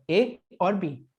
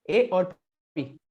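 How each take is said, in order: No difference in how they are said.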